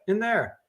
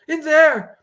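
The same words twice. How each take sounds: First: Said in the usual way. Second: High, loud frightened cry; panicked. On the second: Acted. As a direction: point and shriek. Frightened woman points at trailer.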